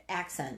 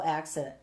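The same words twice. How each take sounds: First: Said in the usual way. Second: "accent" fumbled towards "accident"; slip of the tongue. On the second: Real, not acted. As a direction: stumble on "accent", as if starting "accident". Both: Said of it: "I said accident".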